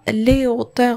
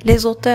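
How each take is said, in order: First: The words are said separately, with no z link. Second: A z sound links the two words together. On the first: It means the heights. The speaker calls it right. "ما عنديش لا ليزون" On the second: It sounds like a different word. The speaker calls it wrong. "هي واحد الكلمه واحده اخرى يعني بدلت لو سونس ديال الكلمه"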